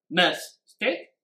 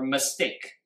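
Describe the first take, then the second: First: MIStake with the first syllable hit, slowly; stress on the first syllable. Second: MisTAKE with TAKE drawn out and stressed; stress on the second syllable. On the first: English teacher offering a stress choice to students, stress on MIS. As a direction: stress MIS in "Mistake", the wrong-sounding option. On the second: English teacher asking students where stress falls, stress on TAKE. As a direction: hit TAKE in "mistake", slowly. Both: Shown as a demonstration. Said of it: "请问重音放在哪里".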